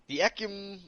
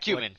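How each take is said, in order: First: The name ends with an 'um' sound. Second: The name ends with a 'men' sound. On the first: The speaker calls it wrong. "I don't think that's how you pronounce it" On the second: The speaker calls it right. "it's definitely Ecumen because I can pronounce that easier"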